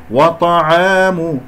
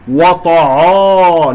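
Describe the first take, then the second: First: وطعام recited slowly, only the ta heavy; correct light ayn. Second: وطعا slow and louder, every sound thickened; wrong heavy ayn. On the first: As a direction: keep wa and aa thin around a heavy T in وطعام. («وطعام» بتفخيم الطاء وحدها) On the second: (نطق خاطئ لـ«وطعا» بتفخيم الواو والعين) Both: Shown as a demonstration. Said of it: "لا أفخم الواو والعين".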